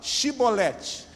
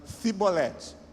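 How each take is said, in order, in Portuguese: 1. A palavra começa com som de 'sh'. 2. A palavra começa com som de 's'. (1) "fala Shibolete" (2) "Efraimita. Pelo sotaque que eles pegavam"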